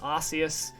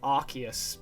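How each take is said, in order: First: The c is said as a soft s sound. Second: The c is said as a hard k sound. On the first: "I used to think it was Arceus" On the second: "Arceus makes sense because Arc and uh, Deus"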